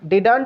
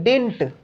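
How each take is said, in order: First: The middle d sound is clearly pronounced. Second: The middle d sound is dropped. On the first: The speaker calls it wrong. "डिडंट नहीं" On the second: The speaker calls it right. "डी दोबारा नहीं बोलना है"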